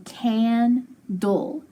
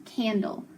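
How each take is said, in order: First: Slow, drawn-out candle, syllable by syllable; stretched-out candle. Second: Said in the usual way. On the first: Shown as a demonstration. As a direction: stretch candle slowly so they hear each sound.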